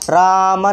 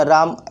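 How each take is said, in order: First: "Rama" pulled out slowly, syllable by syllable; drawn-out vowels. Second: Said in the usual way. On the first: Shown as a demonstration. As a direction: stretch "Rama" into a long first "रा", then "मा". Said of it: "ज़्यादा घिंचा नहीं रहा है ना". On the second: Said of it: "Rama नहीं बोलना".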